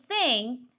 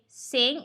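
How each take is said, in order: First: The word begins with a th sound. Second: The word begins with an s sound. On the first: The speaker calls it right. "instead of saying thing" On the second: The speaker calls it wrong. "replace the unvoiced T H with an S"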